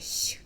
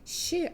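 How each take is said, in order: First: The hissing sound is softer, more palatal. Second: The hissing sound is harder, less palatal. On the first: The speaker calls it right. "а це така щ, щ, ще м'якіше" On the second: The speaker calls it wrong. "це навіть не щ"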